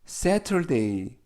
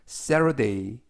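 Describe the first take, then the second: First: The middle t is said crisply and separately. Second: The middle t is linked and softened smoothly. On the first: "Saturday라고 하지만" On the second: "연음에 의해서 Saturday"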